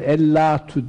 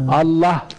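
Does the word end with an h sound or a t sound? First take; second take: t sound; h sound. First: The word ends with a t sound and vowel. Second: The word ends with an h sound. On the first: "durduğumuz zaman ellatu demeyiz" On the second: "Allah diye okuruz"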